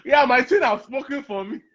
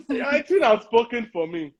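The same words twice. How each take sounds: First: Laughing. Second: Said in the usual way. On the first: Real, not acted. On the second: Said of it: "repeats line".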